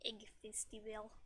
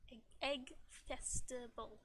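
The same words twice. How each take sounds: First: Said in the usual way. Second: "festival" slowly enunciated, syllable by syllable; careful enunciation. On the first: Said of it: "gotta enunciate sometimes". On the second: Shown as a demonstration. Streamer correcting a tripped-over game phrase, careful enunciation. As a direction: say "Egg, egg festival" slowly and distinctly. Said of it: "Gotta, gotta enunciate sometimes".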